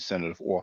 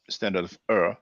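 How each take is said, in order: First: The last word sounds like 'or'. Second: The last word sounds like 'er'. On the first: This is how the speaker usually says it. "I usually sh- pr- pronounce it" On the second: This is how some other people say it. "maybe some people will pronounce it"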